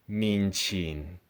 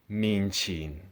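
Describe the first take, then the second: First: The second syllable starts with a 'ch' sound. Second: The same.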